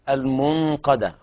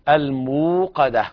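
First: The middle consonant is an n sound. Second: The middle sound is a long w vowel. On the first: The speaker calls it wrong. "بعض الناس يقرأ لحنا" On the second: The speaker calls it right. "ما في نون"

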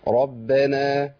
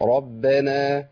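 First: The r is pronounced thick and heavy. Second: The r is pronounced thick and heavy.

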